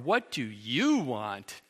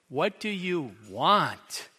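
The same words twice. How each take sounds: First: The question sounds dismissive and contemptuous. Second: The question sounds irritated and annoyed. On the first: The listener does not deserve attention. "As in, "You don't deserve my attention."" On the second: The asker wants to be left alone. "As in, "Can't you just leave me alone?""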